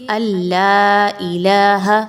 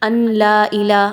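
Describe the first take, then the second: First: The n sound merges fully into the l. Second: The n sound is pronounced clearly before l. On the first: The speaker calls it right. "आप डायरेक्ट हमज़ा को लाम के साथ मिलाइए" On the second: The speaker calls it wrong. "अन ला इला ऐसा पढ़ेंगे? नहीं पढ़ेंगे"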